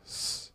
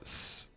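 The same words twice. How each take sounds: First: The S is soft, almost lisped. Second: The S is a plain, sharp hiss. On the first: "It's softer or something. almost like a like a soft lisp" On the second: "It's not s"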